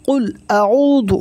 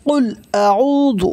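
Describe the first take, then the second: Both takes have the same delivery.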